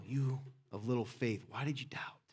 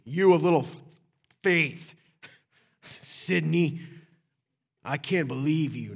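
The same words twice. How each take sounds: First: Not angry. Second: Loud mock scolding, punched word by word; angry. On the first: Preacher shows how Jesus spoke to Peter, gentle and unangry. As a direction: say it softly and tenderly, dropping away. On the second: Preacher shows how Jesus didn't say it, angry scolding. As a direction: bark it as an exasperated telling-off. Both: Shown as a demonstration. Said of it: "he didn't say it angry".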